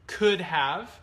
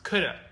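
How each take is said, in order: First: The words are said fully and separately. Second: The words are reduced and run together. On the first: "here we have could have" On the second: "Which is often pronounced coulda"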